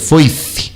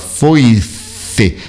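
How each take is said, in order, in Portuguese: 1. Começa com a língua entre os dentes. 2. Começa com um som de f simples. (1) "mas colocando a língua para fora e mordendo" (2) "como se você falasse a palavra foice"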